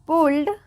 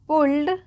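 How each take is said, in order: No difference in how they are said.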